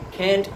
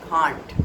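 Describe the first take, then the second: First: It is said in an American accent. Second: It is said in a British accent. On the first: "in American English" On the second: "in the British English it is"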